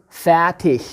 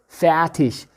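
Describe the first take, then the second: The two takes are said the same way.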